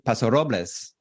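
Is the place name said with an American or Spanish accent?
Spanish. The name is said with a Spanish accent. "it would be"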